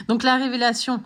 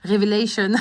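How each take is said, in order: First: Said in the usual way. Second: Révélation said the English way, "Révélation" as "revelashon"; playful mock English accent on "Révélation", the French word anglicised. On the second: Astrology vlogger jokingly says "Révélation" in a mock English accent. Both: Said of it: "j'essaye de faire l'accent anglais là".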